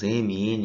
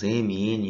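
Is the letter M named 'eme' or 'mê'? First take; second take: eme; eme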